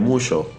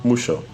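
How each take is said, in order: First: The middle consonant is a 'sh' sound. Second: The same.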